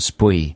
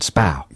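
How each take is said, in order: First: The name is sounded out letter by letter. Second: The name is said with an 'ow' vowel. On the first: "the phonetic pronunciation" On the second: "the correctic pronunciation"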